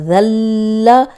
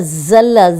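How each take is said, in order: First: It begins with a soft 'th' sound. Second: It begins with a hissing 'z' sound. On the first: He was humiliated. The speaker calls it right. "ऊपर सामने के जो दो दांत हैं उनके किनारे पे लगाएंगे तो तब ये निकलेगा" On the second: He slipped. The speaker calls it wrong. "वरना ज़ल्ला ये साउंड आएगी"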